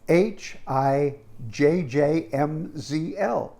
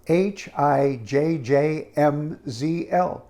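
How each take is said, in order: Both takes have the same delivery.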